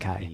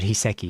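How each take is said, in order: First: The name ends with an 'ai' sound. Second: The name ends with an 'ee' sound. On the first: The speaker calls it right. "It's Hisekai" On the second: The speaker calls it wrong. "not Hiseki"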